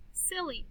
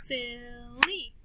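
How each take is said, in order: First: Said in the usual way. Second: SILLY drawn out as sil-ly; slow "Sil-ly" for clapping; clapped syllables. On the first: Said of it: "listen to these words". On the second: Shown as a demonstration. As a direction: stretch "Silly" into two beats. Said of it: "then we'll clap the syllables".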